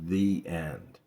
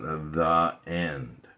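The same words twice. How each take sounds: First: The vowel in 'the' is a long ee. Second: The vowel in 'the' is a short uh. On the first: The speaker calls it right. "It's the end because the word end ... starts with a vowel" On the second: The speaker calls it wrong. "it's not the end"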